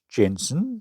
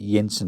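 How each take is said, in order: First: The name begins with a J sound. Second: The name begins with a Y sound.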